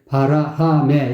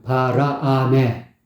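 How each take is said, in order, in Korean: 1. 두 번째 음절은 목에서 나는 거친 ㅎ 소리로 시작해요. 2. 두 번째 음절은 ㅎ 소리 없이 시작해요. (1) "바라, 하메 이렇게 부르고 있다고" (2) "바라, 아메거든요"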